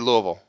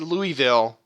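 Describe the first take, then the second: First: It is pronounced the way locals say it. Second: It is pronounced the way outsiders say it. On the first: The speaker is from the area. The speaker calls it right. "You say Louisville" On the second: The speaker is not from the area. The speaker calls it wrong. "you don't say Louisville if you're from this area"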